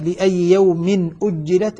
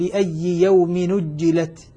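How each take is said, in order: First: The glottal stop before the last word is pronounced. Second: The glottal stop is dropped, its vowel moved back. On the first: "لما يقول مثلا" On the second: "أقول"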